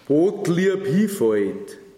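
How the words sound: It is spoken in Bavarian dialect. "auf Bayerisch erst vorlese"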